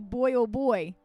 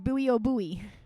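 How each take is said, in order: First: Buoy is said the British way, like boy. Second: Buoy is said the American way, not like boy. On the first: "this joke with a British accent would be boy oh boy" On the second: "in America, we say buoy, so it's buoy oh buoy"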